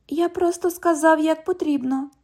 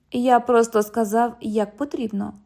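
First: High, mocking imitation of the cop; mocking echo. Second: Said in the usual way. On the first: London echoes the cop's words in a high mocking voice. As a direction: parrot him back to tease. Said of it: "У вас тут що, відлуння?".

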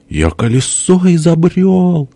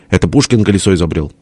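First: Very high, drawn-out character cry; plaintive boast. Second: Fast rebuttal at usual pitch; quick retort. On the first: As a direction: stretch it out high, insisting. (высокий протяжный выкрик) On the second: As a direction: rattle off the correction. (быстрое возражение обычным голосом) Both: A narrator's reading. Перепалка: похвальба и возражение.

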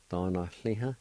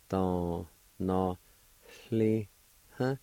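First: Said in the usual way. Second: "Don, no, li, huh" slowly, a pause after each syllable. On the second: Shown as a demonstration. Teacher repeating the word for learners, slowly sounded out. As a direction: sound out "Don, no, li, huh" in held, separate pieces. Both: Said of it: "It's gonna sound like this".

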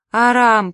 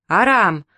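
First: Drawn-out, louder, higher wail of АРАМ; wailing lament. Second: Short, loud call of АРАМ; shouted name. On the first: Wife lamenting to her husband, wailing. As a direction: wail АРАМ, stretching the vowel. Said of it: "причитала Репсиме". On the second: Crowd greeting him at the bus station, calling out. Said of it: "выкрикивали люди". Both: A narrator's reading.

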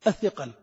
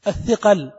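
First: Said in the usual way. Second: الثقل said louder and punched; stressed repeat. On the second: Shown as a demonstration. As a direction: hit الثقل hard to drive it home. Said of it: "هو الذي سبب هذه المشكلة كلها". (تشديد على كلمة الثقل بصوت أعلى)

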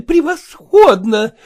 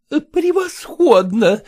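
First: High, louder, rising gush; rapturous, louder. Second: High, slow gushing praise; rapturous. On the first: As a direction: cry it out in raptures. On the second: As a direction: gush over her daughter. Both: Acted. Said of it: "восторженно потрясая лентами".

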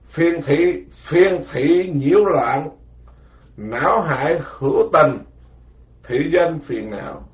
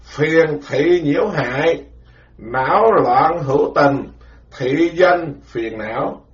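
First: Chant-like teaching recitation; measured scripture recitation; slow recitation. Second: Deliberately slow, word-by-word recitation; slow chanted repeat for memorizing. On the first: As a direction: recite each word slowly for disciples to memorize. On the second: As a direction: drill the phrase slowly so it sticks. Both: Shown as a demonstration. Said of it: "phải nhớ từng chữ vậy đó nghe".

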